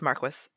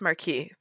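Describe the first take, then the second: First: The word is given its English pronunciation. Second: The word is given its French pronunciation. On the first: "But in English, it's marquis" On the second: "In French, it's marquis"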